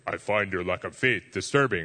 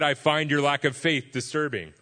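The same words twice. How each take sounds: First: It is said in a put-on villain's voice. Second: It is said in his normal speaking voice.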